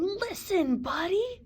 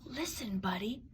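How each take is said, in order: First: Loud call, pitched up; calling out loudly; yelling. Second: Soft unvoiced whisper; hushed whisper. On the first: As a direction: yell his name to get through. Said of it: "His parents tried yelling". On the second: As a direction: whisper it like a secret. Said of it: "They tried whispering". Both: A narrator's reading.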